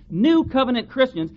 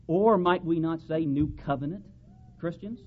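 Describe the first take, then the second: First: Covenant hit higher and louder in New Covenant Christians; stress on Covenant. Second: Said in the usual way. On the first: Shown as a demonstration. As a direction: lean hard on the word Covenant. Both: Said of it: "emphasis this time on the word covenant".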